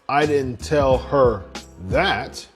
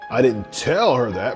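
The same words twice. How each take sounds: First: The stress falls on the word I. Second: The stress falls on the word tell. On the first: Someone else could have told her. "And so someone else could have told her" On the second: It may have been shown or hinted instead. "meaning that I could have shown her"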